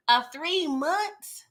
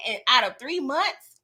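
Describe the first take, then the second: First: Slow, drawn-out incredulous question; mock disbelief, dragged slow. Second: Said in the usual way. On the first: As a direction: stretch it out, can't believe it. Repeats in disbelief.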